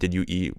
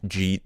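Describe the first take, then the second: First: It is said fully as three separate words. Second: It is said quickly, squeezed into one syllable.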